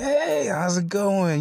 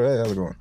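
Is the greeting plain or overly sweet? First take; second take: overly sweet; plain. First: It is said in an overly sweet way. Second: It is said in a plain, ordinary way.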